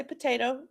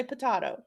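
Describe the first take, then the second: First: "potato" as puh-TAY-toh; potato with long A. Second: "potato" as puh-TAH-toh. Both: Shown as a demonstration. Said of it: "some people say potato".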